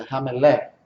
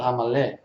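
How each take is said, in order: First: "Ramelé" with an e in the middle; correct vowel in Ramelé. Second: "Ramalé" with an a in the middle; common pronunciation of Ramalé. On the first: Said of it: "mas é Ramelé". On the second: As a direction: say "Ramalé" quickly, middle vowel as a. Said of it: "a gente fala Ramalé". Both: Shown as a demonstration.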